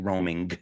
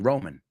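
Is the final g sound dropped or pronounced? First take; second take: pronounced; dropped. First: The final g sound is fully pronounced. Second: The final g sound is dropped. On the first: The speaker calls it wrong. "We don't say roaming. It's too much" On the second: The speaker calls it right. "We say Roman"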